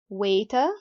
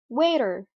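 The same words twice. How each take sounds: First: The t is pronounced as a clear t. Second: The t is softened into a d-like sound. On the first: "the British people pronounce the R regularly without any change" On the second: "The Americans have a very distinctive sound, the flap t sound"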